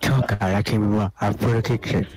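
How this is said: It is said in an Apple-ad-like speaking style.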